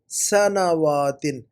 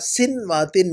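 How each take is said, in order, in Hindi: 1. पहला स्वर 'a' है, सहजता से बोला गया। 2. पहला स्वर 'i' है, रुककर।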